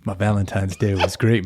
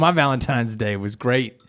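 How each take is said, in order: First: It is said in a smooth, calm announcer voice. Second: It is said in an ordinary conversational voice. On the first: "let's use our cool, calm, smooth voices" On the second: "You just talk normal"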